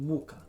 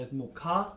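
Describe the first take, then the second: First: "muka" with the first syllable stressed, MU-ka. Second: "murka" with the last syllable stressed, mu-KA; stress on final A. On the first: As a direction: hit the U of "muka". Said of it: "with the stress on the U". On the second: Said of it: "a stress on the R". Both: Shown as a demonstration.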